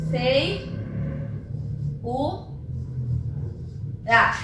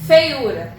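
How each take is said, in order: First: "fei... u... ah", long pause between syllables. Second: Said in the usual way. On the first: Shown as a demonstration. Teacher dividing feiura on the board, syllable by syllable. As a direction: break "fei, u, ah" into three isolated syllables.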